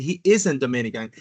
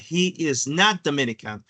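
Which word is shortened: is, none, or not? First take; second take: not; none. First: The word not is shortened onto is. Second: Every word is said in full, unshortened.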